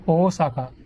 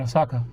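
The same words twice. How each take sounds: First: Osaka with long opening OH; emphasis on O. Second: Osaka quick with short O; quick pronunciation. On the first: Showing how it is to them, stressed long O. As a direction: hold the first O of Osaka. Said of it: "there's an emphasis on the beginning". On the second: Showing the usual way, quick pronunciation. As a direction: say Osaka fast, nothing stretched. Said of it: "a quick pronunciation". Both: Shown as a demonstration.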